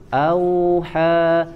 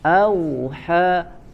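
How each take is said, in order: First: The 'au' sound is light and soft. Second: The 'au' sound is pressed hard. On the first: The speaker calls it right. "tapi lin lembut" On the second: The speaker calls it wrong. "jangan auha, au jangan ditekan"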